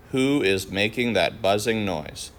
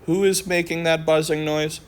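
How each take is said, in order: First: Flat statement tune, falling at the end; matter-of-fact statement. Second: High questioning tune, much higher pitch; curious question tune; asked as a question. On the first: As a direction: state it plainly, no question lift. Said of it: "we can say it as a statement". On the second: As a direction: ask it as a real question, pitch up. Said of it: "when we have a question that starts with who, we can say it as a statement". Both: Shown as a demonstration.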